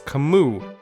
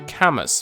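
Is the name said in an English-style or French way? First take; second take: French; English-style. First: The name is said in a French way. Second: The name is said in an English-style way. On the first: The speaker calls it right. "the name is French, and the proper pronunciation is" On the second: The speaker calls it wrong. "We've just assumed for years that it's supposed to be"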